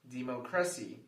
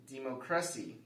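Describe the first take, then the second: First: The stress is on the third syllable. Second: The same.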